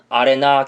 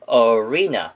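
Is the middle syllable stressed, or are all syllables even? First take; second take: even; middle. First: The syllables are said evenly, Korean style. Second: The stress falls strongly on the middle syllable. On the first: The speaker calls it wrong. "대부분의 학생들은 아레나 경기장, 아레나 경기장 이런 식으로 암기를 하셨을 텐데" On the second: The speaker calls it right. "re에다 강세를 빡 찍으면서 arena라고 하셔야지"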